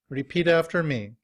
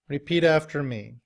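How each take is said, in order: Both takes have the same delivery.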